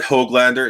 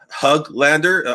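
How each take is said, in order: First: The first syllable sounds like 'hog'. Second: The first syllable sounds close to 'hug'. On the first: The speaker calls it wrong. "it's not Hoglander" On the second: The speaker calls it right. "almost Hug, but not quite there yet"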